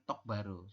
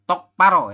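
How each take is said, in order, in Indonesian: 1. Suku kata kedua diawali dengan bunyi B yang lembut. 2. Suku kata kedua diawali dengan bunyi P yang tegang. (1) "bukan tokbaro" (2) "jadi tokparo ya"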